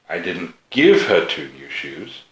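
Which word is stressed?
give. The word "give" carries the main stress. She paid for the shoes herself. "They did come from me, but she had to pay for them"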